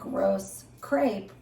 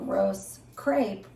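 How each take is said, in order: First: It is said with an English pronunciation. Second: The same.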